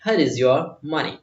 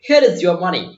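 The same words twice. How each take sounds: First: Slow model repeat. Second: Handing money back. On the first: Shown as a demonstration. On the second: Retold or imitated. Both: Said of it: "वो बोल रहा है".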